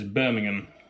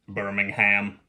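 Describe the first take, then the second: First: It is said with a British pronunciation. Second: It is said with a mocking American pronunciation. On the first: The speaker calls it right. "which for any Americans watching is how you pronounce that word" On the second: The speaker calls it wrong. "What's that about? I shouldn't mock"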